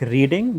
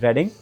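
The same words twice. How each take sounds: First: It sounds like the ordinary word reading. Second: It sounds different from the ordinary word reading. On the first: This is how the written name looks. The speaker calls it wrong. "when you kind of see it, uh, it will go like reading" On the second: This is how the name is really said. The speaker calls it right. "actually the pronunciation is Reading"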